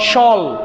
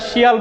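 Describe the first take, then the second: First: The ending is said as one syllable, 'shul'. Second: The ending is said as two syllables, 'shee-al'. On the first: The speaker calls it right. "এর উচ্চারণ কি শল" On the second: The speaker calls it wrong. "আমরা শিয়াল বলবো না"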